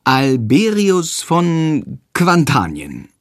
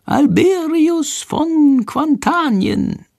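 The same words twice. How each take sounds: First: Slowly echoing each syllable; boy slowly repeating the prompted name. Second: Very high, very slow prompting; tiny bird whispering the answer from hiding. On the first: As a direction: copy it carefully, word by word. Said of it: "Jendrik spricht langsam nach". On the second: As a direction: spell it out slowly for the boy. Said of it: "Shandors leise Stimme ... vorsagen". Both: A narrator's reading.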